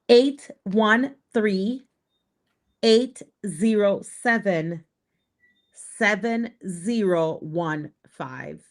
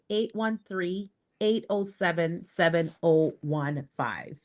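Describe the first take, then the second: First: The number is said slowly and deliberately. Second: The number is said at normal, quicker speed.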